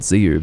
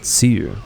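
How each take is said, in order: First: The name begins with a buzzing Z sound. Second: The name begins with a hissing S sound. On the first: The speaker calls it wrong. "I thought I was called Lord Ziu" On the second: The speaker calls it right. "It's not a Z, it's a it's an S sound"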